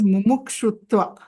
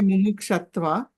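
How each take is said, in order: First: The third syllable is said as 'shu'. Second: The third syllable is said as 'sha'. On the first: The speaker calls it right. "It is mumukshutva" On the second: The speaker calls it wrong. "Many of us have a tendency... We say mumukshatva"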